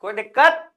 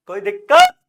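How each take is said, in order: First: Said in the usual way. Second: Much higher, louder questioning squeak; high-pitched check. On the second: Real, not acted. Teacher checks again if students have any problem, high-pitched. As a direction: push the question way up high and loud.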